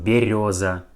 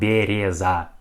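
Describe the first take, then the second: First: The second vowel sounds like yo. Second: The second vowel sounds like ye. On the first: The speaker calls it right. "we pronounce like yo" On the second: The speaker calls it wrong. "not береза"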